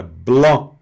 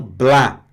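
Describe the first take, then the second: First: "bló" nasal and rounded; right nasal. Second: "blá" with an open non-nasal a; wrong open a. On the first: (bló nasal certo) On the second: (blá aberto errado) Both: Shown as a demonstration. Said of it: "e não blá".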